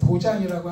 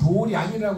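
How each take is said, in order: First: The second syllable is said as jang. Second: The second syllable is said as ryang. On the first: The speaker calls it wrong. "도장이라고 하지 않습니다" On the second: The speaker calls it right. "요거는 도량이라고 합니다"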